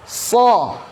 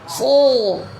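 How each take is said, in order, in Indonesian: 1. Penuh, tapi diucapkan terbuka, tidak tertelan. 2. Terdengar seperti tertelan kembali ke tenggorokan. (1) "Lebih tebal ya" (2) "seakan-akan ditelan atau misalnya seakan-akan di ditenggorokan"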